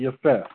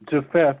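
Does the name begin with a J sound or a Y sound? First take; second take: Y sound; J sound. First: The name begins with a Y sound. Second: The name begins with a J sound. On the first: The speaker calls it right. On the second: The speaker calls it wrong.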